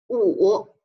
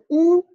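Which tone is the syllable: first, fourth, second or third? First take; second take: third; first. First: The pitch dips low and then rises. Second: The pitch stays high and level. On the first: "三声读五" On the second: "乌加上一声就是乌"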